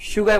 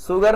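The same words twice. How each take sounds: First: शुगर begun with sh, "shoogar"; correct sh sound. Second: शुगर said "soogar", with a plain s; wrong s sound. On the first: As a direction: say शुगर with a hushing sh. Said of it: "शुगर बोलेंगे". (शुगर को 'श' से बोलें) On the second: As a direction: mispronounce शुगर with s instead of sh. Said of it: "शुगर नहीं बोलेंगे". (शुगर को 'स' से 'सुगर' बोलें) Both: Shown as a demonstration.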